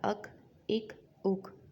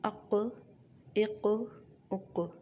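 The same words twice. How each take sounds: First: Each final consonant stops flat without any bounce. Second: Each final consonant ends with an echoing bounce. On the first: The speaker calls it wrong. "मैंने ऐसे नहीं पढ़ा" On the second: The speaker calls it right. "मैं हिलाकर पढ़ रही हूँ"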